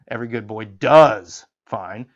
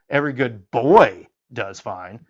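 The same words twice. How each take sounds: First: The stress falls on the word does. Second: The stress falls on the word boy.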